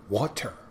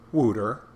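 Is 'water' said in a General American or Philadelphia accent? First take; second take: General American; Philadelphia. First: It has a clear T and a standard vowel. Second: It has an 'oo' vowel and a softened T. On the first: "You got to pronounce the T" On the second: "That's Philadelphia"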